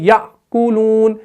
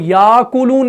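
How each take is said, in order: First: The first syllable closes with a glottal stop. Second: The first vowel is long, with no glottal stop. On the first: The speaker calls it right. "वहां पर भी हम हमजा साकिना को पढ़ते हैं" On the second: The speaker calls it wrong. "हम याकुलून नहीं पढ़ते हैं"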